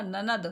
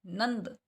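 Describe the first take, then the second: First: ननद with full न, no nasal; wrong version. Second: नंद with the half न nasal before द; correct version. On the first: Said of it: "This is wrong". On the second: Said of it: "एक और आधे न की आवाज़". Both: Shown as a demonstration.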